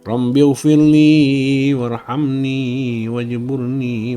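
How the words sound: It is recited in a pleading, imploring tone. The speaker is truly begging for something. The speaker calls it right. "bacanya seperti orang memohon ya"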